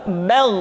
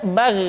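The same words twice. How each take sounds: First: "bal" with a thick, dark vowel; épaissi. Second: "bal" with a thin, light vowel, as the mistake; non épaissi. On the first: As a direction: thicken the sound of "bal" toward the back. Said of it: "tetapi menebal". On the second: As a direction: show the wrong, thin "bal". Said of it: "tidak bal". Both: Shown as a demonstration.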